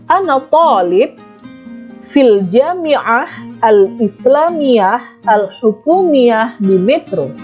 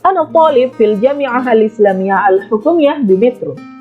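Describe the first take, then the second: First: The sentence is spoken at a slower pace. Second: The sentence is spoken at a faster pace. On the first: "saya ulangi lagi pelafalannya" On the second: "Kalau agak cepat"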